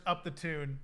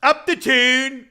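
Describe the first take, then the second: First: Put-on muttered-to-self British accent, softer; imitated British accent. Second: Mock British woman, loud, drawn out and high; imitated British accent. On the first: Searching for the clip of the street interview, light imitated British accent. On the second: Quoting a woman interviewed on the street, imitated British accent. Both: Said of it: "And she's like".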